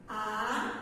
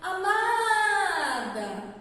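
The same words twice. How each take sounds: First: Amada broken into a-ma-da with long gaps; split into syllables. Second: Amada called out long, stretching the MA; loud, drawn-out call to someone. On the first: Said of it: "Separem amada de maneira gramatical". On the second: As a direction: hail someone with a sung-out, lengthened syllable. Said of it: "como se eu estivesse chamando por alguém". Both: Shown as a demonstration.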